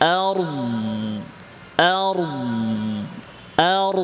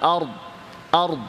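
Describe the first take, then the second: First: The consonant sound is held and keeps flowing. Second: The consonant sound stops abruptly. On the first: The speaker calls it right. "এভাবে আওয়াজটা চলমান রাখতে হবে" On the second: The speaker calls it wrong. "এরকম না আর আর আওয়াজটা বন্ধ হয়ে যাবে না"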